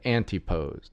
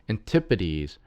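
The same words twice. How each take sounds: First: It is said in a more Greek style. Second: It is said in a plain English style. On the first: The speaker calls it wrong. "a significantly more Greek approach" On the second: The speaker calls it right. "It's actually said Antipodes"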